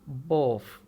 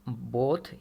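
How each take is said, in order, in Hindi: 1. इस शब्द का अंत F की आवाज़ से होता है। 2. इस शब्द का अंत TH की आवाज़ से होता है। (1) "ब्रिटिश एक्सेंट में इसको पढ़ते हैं" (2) "न्यूट्रल एक्सेंट में जब इसे पढ़ेंगे"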